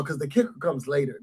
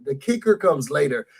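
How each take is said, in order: First: Hushed teaser. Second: Said in the usual way. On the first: Real, not acted. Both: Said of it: "remember what I'm saying".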